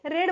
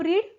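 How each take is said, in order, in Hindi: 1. स्वर एक छोटी 'e' ध्वनि है। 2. स्वर एक लंबी 'ee' ध्वनि है। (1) "पास्ट में इसे रेड बोलेंगे" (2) "आर ई ए डी मतलब रीड, ये प्रेजेंट में हुआ"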